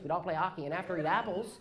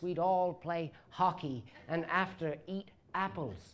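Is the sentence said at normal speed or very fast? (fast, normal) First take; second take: fast; normal. First: The sentence is rushed together like one word. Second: The sentence is said at an ordinary speed.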